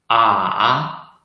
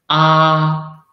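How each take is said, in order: First: The syllable is said in the third tone. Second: The syllable is said in the first tone. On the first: "the third tongue" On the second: "the first tongue"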